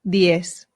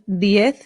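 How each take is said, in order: First: It is said with a Latin American pronunciation. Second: It is said with a pronunciation from Spain. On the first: "the Latin American way" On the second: "the Spanish way"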